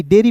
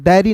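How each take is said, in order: First: डेयरी as "day-ree", close first vowel; corrected pronunciation. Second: डेयरी as "dai-ree", open first vowel; wrong pronunciation. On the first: Teacher telling friends how to read it, डेयरी said "day-ree". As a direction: give डेयरी a pure "ay" sound. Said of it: "डेयरी पढ़ेंगे दोस्तों". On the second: Teacher warning friends off a reading, डेयरी said "dai-ree". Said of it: "डेयरी नहीं पढ़ते हैं". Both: Shown as a demonstration.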